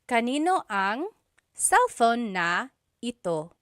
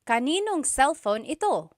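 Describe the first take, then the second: First: Every word is said, including na. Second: Kanino and ang merge and na is dropped. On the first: This is the technically correct form. "technically there is a na" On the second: This is casual everyday speech. "just quickly speaking, someone might say"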